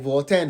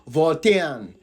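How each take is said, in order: First: The word is said quickly and clipped. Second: The word is said slowly and in full. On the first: The speaker calls it wrong. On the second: The speaker calls it right.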